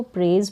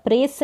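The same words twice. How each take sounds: First: "प्रेज" ending in a voiced z; final Z sound. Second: "प्रेस" ending in an unvoiced s sound; wrong final S. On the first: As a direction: say "प्रेज" with a buzzing z at the end. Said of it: "प्रेज पढ़ेंगे". ("प्रेज" के अंत में ज़ की ध्वनि) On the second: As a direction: say "प्रेस" with a hissed s, not z. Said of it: "प्रेस नहीं पढ़ेंगे". ("प्रेस" के अंत में स की ध्वनि) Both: Shown as a demonstration.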